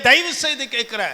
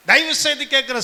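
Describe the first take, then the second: No difference in how they are said.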